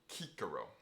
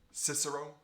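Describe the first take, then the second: First: It begins with a hard K sound. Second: It begins with a soft S sound. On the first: This is the classical Latin way. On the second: This is the usual English way.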